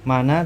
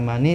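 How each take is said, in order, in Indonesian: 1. Kata itu berakhir dengan vokal a tambahan. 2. Kata itu berakhir dengan vokal i tambahan. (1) "Tidak bisa mana" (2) "tidak bisa mani"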